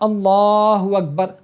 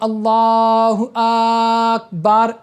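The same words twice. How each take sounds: First: The vowels are kept at normal length. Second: A vowel is stretched out very long. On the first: The speaker calls it right. "जैसे हमको कहना क्या होता है" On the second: The speaker calls it wrong. "अलिफ को इतना ज़्यादा खींच देना कि वो अलग हो जाए"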